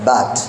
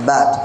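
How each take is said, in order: The two takes are said the same way.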